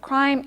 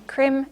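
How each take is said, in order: First: The vowel is said as a free vowel. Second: The vowel is said as a checked vowel. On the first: "the vowel is free" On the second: "If it was checked, you would have a different pronunciation"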